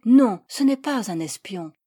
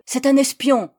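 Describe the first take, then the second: First: Firm, controlled contradiction; composed denial. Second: Loud, high accusation; hateful yell. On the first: Accused woman replies to her persecutor, composed and firm. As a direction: deny it firmly, keeping a cool head. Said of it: "Recourant à tout le sang-froid dont j'étais capable". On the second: Persecutor denounces the foreigner as a spy, hateful yell. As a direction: denounce him in an angry raised voice. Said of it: "me hurla, avec un visage déformé par la haine". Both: A narrator's reading.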